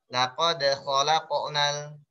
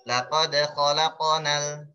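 The two takes are said the same way.

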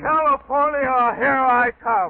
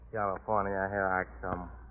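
First: It is said with strong, excited feeling. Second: It is said flatly, without feeling.

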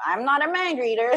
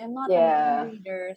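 First: The voice sounds flat and blunt. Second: The voice sounds soft and apologetic. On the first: The speaker is not sorry for not knowing. "No, he would say it like, well" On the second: The speaker is sorry for not knowing. "Filipinos would be like, oh, I'm sorry"

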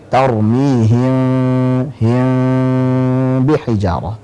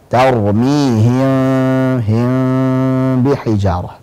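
No difference in how they are said.

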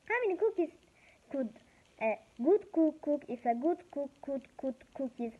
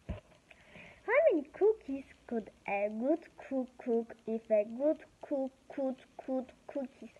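First: It is said fast. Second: It is said slowly.

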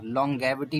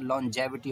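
First: The middle consonant is a hard g sound. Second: The middle consonant is a soft j sound. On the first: The speaker calls it wrong. "लॉन्गेविटी नहीं होगा" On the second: The speaker calls it right. "लॉन्जेविटी होगा"

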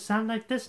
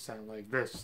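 First: The voice is higher and brighter. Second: The voice is low and tired. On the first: This is the trained feminine voice the speaker aims for. The speaker calls it right. "perk up my voice a little bit" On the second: This is the voice after a poor night and nasal trouble. The speaker calls it wrong. "it has a tendency to get a little lower"

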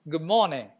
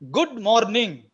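First: The r sound in morning is left out. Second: Every letter is pronounced, including the r. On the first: "The r is dropped" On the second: "If you go by the written expression, good morning, the Telugu way of pronouncing the expression"

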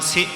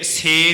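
First: The vowel is short and light, like 'si'. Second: The vowel is drawn out long, like 'se'. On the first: The speaker calls it right. "ਸੇ ਇਸ ਢੰਗ ਨਾਲ ਬੋਲਣਾ ਹੈ" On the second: The speaker calls it wrong. "ਸੇ ਦੀ ਲਾਂ ਵਾਂਗ ਨਹੀਂ ਇਹਨੂੰ ਬੋਲਣਾ"

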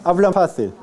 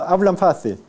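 Both takes have the same delivery.

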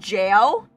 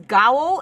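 First: The word starts with a j sound. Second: The word starts with a hard g sound. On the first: The speaker calls it right. "instead of like jail" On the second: The speaker calls it wrong. "I pronounced it as gao"

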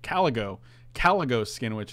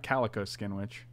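First: The first word does not sound like the cat. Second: The first word sounds like the cat, calico. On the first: The speaker calls it right. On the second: The speaker calls it wrong.

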